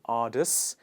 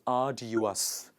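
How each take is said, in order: First: The word is squeezed into two syllables. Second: The word is said with three full syllables. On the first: The speaker calls it wrong. "It's not ardus" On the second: The speaker calls it right. "it is arduous. It is a du us"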